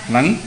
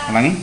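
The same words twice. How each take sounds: Both takes have the same delivery.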